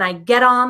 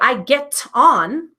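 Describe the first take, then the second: First: The T in get sounds like a D. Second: The T in get is a clear T. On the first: The speaker calls it right. "the T changes to a D" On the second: The speaker calls it wrong. "You don't hear I get on"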